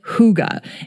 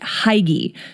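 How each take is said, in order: First: The word is said with a Danish pronunciation. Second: The word is said with an English-style pronunciation. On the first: It is said the way native speakers say it. The speaker calls it right. "the Danes pronounce it" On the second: It is read the way the spelling looks. The speaker calls it wrong. "it looks like you should pronounce it"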